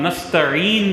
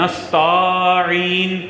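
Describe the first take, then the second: First: The vowel after the 't' is short. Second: The vowel after the 't' is long. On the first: The speaker calls it right. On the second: The speaker calls it wrong.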